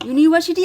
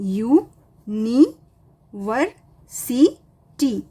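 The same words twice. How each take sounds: First: Said in the usual way. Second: यू, नी, वर, सी, टी with a clear pause after each; teacher sounding out यू, नी, वर, सी, टी one at a time; syllable by syllable. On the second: Shown as a demonstration. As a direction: break the word into five separate beats, यू-नी-वर-सी-टी. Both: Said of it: "इस तरह से तुम्हें break करना है".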